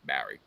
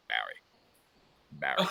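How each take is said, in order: First: Much lower, soft drawn-out name; Rocky calling. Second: Rocky ringtone. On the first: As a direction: drop deep into Rocky's call. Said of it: "As soon as I hear". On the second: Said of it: "his ringtone". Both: Retold or imitated.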